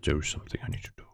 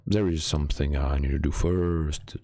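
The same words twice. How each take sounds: First: "There is something I need to do" whispered fast and lower. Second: Said in the usual way. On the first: Acted. Streamer whispering the secret plan to chat. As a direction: hush it to a secret.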